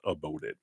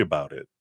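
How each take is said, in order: First: "about" said as "a-boat", softer and lower; attempted Jersey pronunciation. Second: Said in the usual way. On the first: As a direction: try Jersey on "about", rounding the vowel to "oh". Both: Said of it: "a New Jersey accent".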